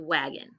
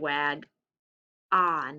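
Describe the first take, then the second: First: The second syllable has a reduced schwa vowel. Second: The second syllable has a full vowel. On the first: The speaker calls it right. "we say wagon" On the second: The speaker calls it wrong. "We don't say"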